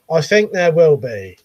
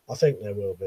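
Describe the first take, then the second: First: Said in the usual way. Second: Softer, lower echo to himself; quiet murmured echo of his own words; muttered repeat. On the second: Shown as a demonstration. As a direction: say it again under your breath. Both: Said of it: "repeats his own answer".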